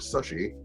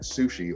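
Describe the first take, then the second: First: The word is pronounced with a child's mispronunciation. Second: The word is pronounced the usual adult way.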